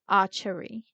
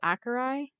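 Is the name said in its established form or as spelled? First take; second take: established; as spelled. First: The name is said in its established pronunciation. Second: The name is said as it is spelled. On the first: The speaker calls it right. "it's called the Archery" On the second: The speaker calls it wrong. "I've been pronouncing it phonetically"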